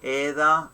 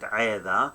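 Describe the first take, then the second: First: It begins with a plain vowel sound. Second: It begins with a throaty consonant sound. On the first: This is the everyday spoken form. "We say إذا in a spoken language" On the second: This is the classical form. "it's gonna be in the classical uh, language"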